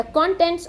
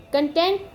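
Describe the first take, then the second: First: Contents as a noun, stress on CON; weight on the start of contents; stress on first syllable. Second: Content as a verb, stress on TENT; weight on the end of Content; stress on second syllable. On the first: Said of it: "here as a noun". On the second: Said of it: "Here it is as a verb". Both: Shown as a demonstration.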